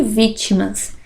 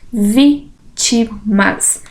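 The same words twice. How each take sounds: First: Said in the usual way. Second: "Vítimas" very slow, syllables apart. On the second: Shown as a demonstration. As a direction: dictate "Vítimas" as three separate syllables. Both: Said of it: "Separação de sílabas".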